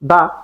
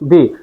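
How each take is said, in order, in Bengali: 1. স্বরধ্বনিটি একটি ছোট 'uh' ধ্বনি। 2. স্বরধ্বনিটি একটি লম্বা 'ee' ধ্বনি। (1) "কনসোনেন্টের আগে উচ্চারণ করব দা" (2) "বাউলের আগে উচ্চারণ করব দি"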